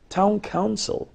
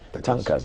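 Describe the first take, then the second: First: Both words are said fully and clearly. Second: The words are squeezed together into one short word. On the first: The speaker calls it right. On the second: The speaker calls it wrong.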